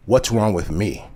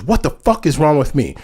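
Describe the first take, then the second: First: Measured, grave retold question; understated, sober challenge; very serious. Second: Heated retold demand, pitched up; acted indignation, higher than usual; indignant. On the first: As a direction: ask it dead seriously at an even pitch. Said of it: "she looks at me very seriously". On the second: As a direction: throw it back as an offended challenge. Friend's question repeated, now angry.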